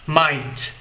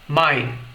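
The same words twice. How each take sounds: First: The final T sound is clearly released. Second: The final T sound is held and unreleased. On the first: "em que a gente consegue captar o som do T no final da palavra" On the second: "como se eu limitasse a pronúncia dessa palavra antes da pronúncia da letra T"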